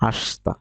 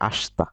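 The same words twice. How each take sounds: First: The vowel after the 'sh' is dropped. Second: The vowel after the 'sh' is dropped.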